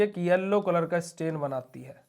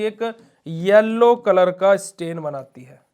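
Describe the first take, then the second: First: Said in the usual way. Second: yellow stretched and stressed, the whole answer slow and louder; slow emphatic answer. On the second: Shown as a demonstration. Teacher drilling the answer to his students, slow and stressed. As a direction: lean on yellow so students remember it. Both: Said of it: "क्या बनाती है बेटा जी?".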